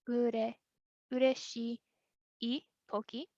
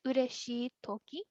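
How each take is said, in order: First: "ureshii" drawn out, long pause, then "toki"; slow breakdown. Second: Said in the usual way. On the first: Shown as a demonstration. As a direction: split it clearly: "ureshii" ... "toki". Teacher breaks the form down.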